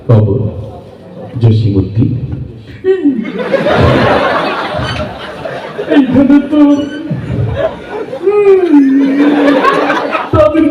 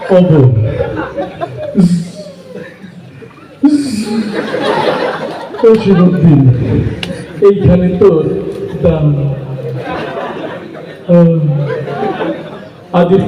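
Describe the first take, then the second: First: It is recited in a strained, uncomfortable voice. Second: It is recited with stuttering and repeated stops. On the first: The reciter has an upset stomach. "Diarrhoea রোগী, পেট খারাপ" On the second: The reciter has trouble getting words out. "একটু তোতলা টাইপের"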